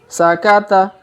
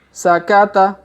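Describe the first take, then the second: The two takes are said the same way.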